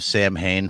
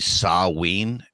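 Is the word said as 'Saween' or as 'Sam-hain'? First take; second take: Sam-hain; Saween. First: It is said as spelled, like 'sam-hain'. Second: It is said as two syllables, like 'sa-ween'. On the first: This is the popular pronunciation the speaker grew up hearing. "I've always heard everyone pronounce it that way" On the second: This is the technically correct, traditional pronunciation. "the like proper pronunciation of that is actually Saween"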